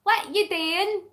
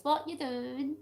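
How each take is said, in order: First: "doing" as "dayin", high and punchy; high Scottish "doing", sounded "dayin"; broad Scottish dialect. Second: "doing" with an "oo" vowel, soft; softer, standard "doing"; standard pronunciation. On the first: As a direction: say "doing" the Scots way, "dae-in", pitched up. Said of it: "So if I said". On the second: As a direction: translate plainly, saying "doing" as "doo-in". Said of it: "That means". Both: Shown as a demonstration.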